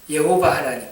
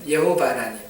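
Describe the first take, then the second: No difference in how they are said.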